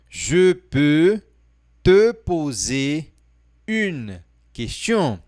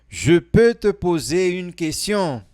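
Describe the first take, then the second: First: The sentence is spoken slowly. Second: The sentence is spoken at normal speed.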